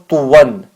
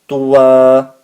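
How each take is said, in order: First: The word ends with an n sound. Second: The word ends with a long a vowel. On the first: The word is read as written, with the double fatha. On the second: The reader stops at the end of the verse. "you have to add the alif and take one fatha off"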